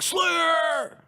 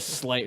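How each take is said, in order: First: It is shouted loudly with rock energy. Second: It is said plainly, without extra energy.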